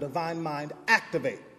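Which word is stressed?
activate. The word activate is stressed.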